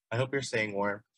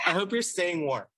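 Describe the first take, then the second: First: Said in the usual way. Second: Laughing. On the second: Real, not acted. Laughing greeting to listener.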